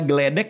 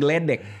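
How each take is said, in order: First: A vowel separates the g and the l. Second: The g and the l run together. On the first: The speaker calls it right. "yang benar adalah" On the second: The speaker calls it wrong.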